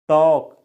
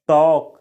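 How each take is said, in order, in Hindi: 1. शब्द में L की ध्वनि नहीं बोली जाती है। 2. शब्द में L की ध्वनि नहीं बोली जाती है।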